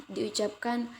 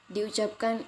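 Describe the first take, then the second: No difference in how they are said.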